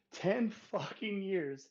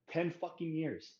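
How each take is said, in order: First: Very slow, louder, every word hammered; repeating it louder and much slower for effect; drawn-out louder repeat. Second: Slowed, each word weighted; first take of a ranting repeat, words stressed; emphatic first statement. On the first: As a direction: drag it out and slam TEN. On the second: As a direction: lay down the number firmly. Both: Real, not acted.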